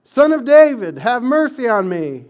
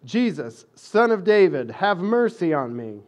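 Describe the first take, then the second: First: Much higher and louder desperate plea; desperate beggar yelling for mercy; crying out all the more. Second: A beggar calling out loud for mercy; loud pleading cry for mercy. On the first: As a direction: shout it over the crowd hushing him. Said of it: "he kept crying out all the more". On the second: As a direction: call out to Jesus from the roadside, pleading. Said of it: "he began to cry out". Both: Retold or imitated.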